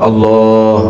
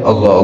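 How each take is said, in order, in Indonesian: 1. Vokalnya dibaca panjang. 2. Vokalnya dibaca pendek. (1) "Ada madnya itu yang dipanjangkan bacaannya" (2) "Tidak boleh membacanya"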